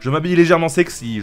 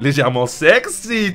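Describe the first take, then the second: First: Said in the usual way. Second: Légèrement sexy stretched slowly and louder; drawn out, teasing. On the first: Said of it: "je m'habille comme d'habitude". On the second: Shown as a demonstration. Reading the line again with a slow teasing stretch.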